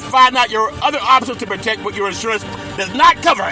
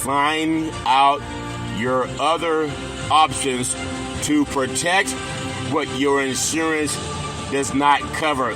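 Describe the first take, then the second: First: The sentence is spoken at a fast pace. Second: The sentence is spoken at a slow pace. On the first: "say it faster so you don't scare me" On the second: "I'm going to say it slower"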